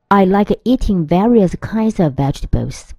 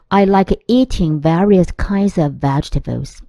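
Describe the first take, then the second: Both takes have the same delivery.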